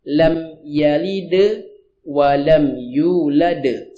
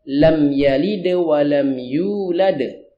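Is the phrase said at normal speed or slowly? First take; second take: slowly; normal. First: The phrase is said slowly and drawn out. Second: The phrase is said at normal speed.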